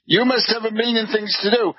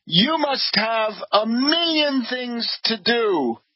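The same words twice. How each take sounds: First: Fast, tossed-off repeat of the brush-off; quick mocking repeat. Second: Slow, drawn-out quote of the host, a little higher; slow quoted line. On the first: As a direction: rattle it off with a smirk. Mocking repeat after laugh. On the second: Retold or imitated. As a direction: read the hosts' polite brush-off slowly. Quoting the hosts' brush-off.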